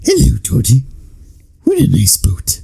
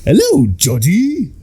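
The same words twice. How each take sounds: First: Creepy greeting sinking into a whisper; Bill Skarsgård Pennywise. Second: High, slow singsong clown greeting; sweet creepy clown voice, drawn out; Tim Curry Pennywise. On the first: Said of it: "Bill Skarsgård is just like". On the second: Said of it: "Tim Curry's Pennywise is just like". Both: Retold or imitated.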